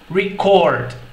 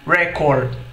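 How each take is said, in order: First: The stress is on the second syllable. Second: The stress is on the first syllable. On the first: "ou no fim do trecho" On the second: "você pode acentuar uma palavra logo no começo dela"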